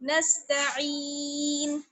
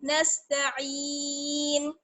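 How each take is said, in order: First: The word ends on a bare n sound. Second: The word ends on a bare n sound.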